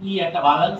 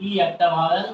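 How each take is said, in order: Both takes have the same delivery.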